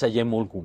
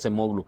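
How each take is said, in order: First: The second consonant sounds like y. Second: The second consonant sounds like s. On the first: The speaker calls it right. "es Ayemoglu" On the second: The speaker calls it wrong. "se dice que no se dice Acemoglu"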